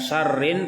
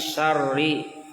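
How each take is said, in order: First: The word ends with an added n sound. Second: The word ends on a vowel without n. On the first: The speaker calls it wrong. "bukan syarrin" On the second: The speaker calls it right. "tapi syarri tanpa tanwin"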